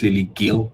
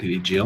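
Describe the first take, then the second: First: The surname starts with a hard G sound. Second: The surname starts with a J sound. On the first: The speaker calls it right. "It's Lily Gill" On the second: The speaker calls it wrong. "not Lily Jill"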